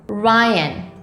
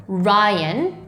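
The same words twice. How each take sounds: Both takes have the same delivery.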